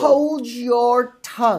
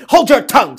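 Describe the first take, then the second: First: Drawn-out, high stepmother threat; lightly hissed wicked stepmother; slow menacing stepmother. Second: Loud, high stepmother snapping; angry snap. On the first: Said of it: "she says". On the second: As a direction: bark it out like a wicked stepmother. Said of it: "said the stepmother as she gashed her teeth". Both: A narrator's reading.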